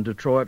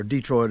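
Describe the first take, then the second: First: Detroit with stress on the second syllable, de-TROIT; standard Detroit. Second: Detroit with stress on the first syllable, DEE-troit; Southern pronunciation of Detroit. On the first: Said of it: "or Detroit as we call it". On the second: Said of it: "as we call it". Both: Shown as a demonstration.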